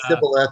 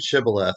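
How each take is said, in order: First: The word begins with a plain s sound. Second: The word begins with an sh sound. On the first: The speaker is not from the right group. The speaker calls it wrong. "they couldn't pronounce it right. So instead of Sha, they would pronounce it Sa" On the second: The speaker belongs to the right group. The speaker calls it right. "the test word is Shibboleth"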